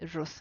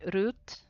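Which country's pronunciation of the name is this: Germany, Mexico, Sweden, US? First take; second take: US; Sweden. First: The name is said with an American English pronunciation. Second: The name is said with a Swedish pronunciation. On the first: "in the U S ... they say Ruth" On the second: "In Sweden, they say Ruth"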